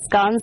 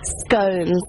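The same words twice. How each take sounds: First: The vowel is short, rhyming with 'johns'. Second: The vowel is long, rhyming with 'stones'. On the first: The speaker calls it wrong. "if it was pronounced scones, there would not be any E in the word" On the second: The speaker calls it right.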